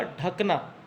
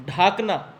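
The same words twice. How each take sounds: First: ढकना with a short first a; ढकना, the correct version; correct short dha. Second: ढाकना with a long first aa; ढाकना, the wrong version; wrong long dhaa. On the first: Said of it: "इसका शुद्ध रूप होगा". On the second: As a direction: say ढाकना as the mistaken form. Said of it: "ढाकना न होकर". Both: Shown as a demonstration.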